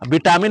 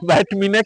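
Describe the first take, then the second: First: The first syllable has a short 'vi' sound. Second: The first syllable has a 'vai' diphthong sound. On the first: The speaker calls it wrong. "विटामिन हम लोग कहते हैं, लेकिन विटामिन नहीं है" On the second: The speaker calls it right. "बैटमिन कहते हैं"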